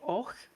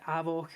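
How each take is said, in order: First: The name is said as one syllable. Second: The name is said as two syllables. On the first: The speaker calls it right. "called Och, but it's spelled A V O C H" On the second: The speaker calls it wrong. "I always pronounce it Avoch and was immediately told, no, that's not right"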